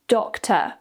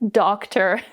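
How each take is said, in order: First: The final R is dropped, ending in a schwa. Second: The final R is clearly pronounced at the end. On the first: "in the U K with a non-rhotic accent speaker will be" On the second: "in the U S, where they use more rhotic accents"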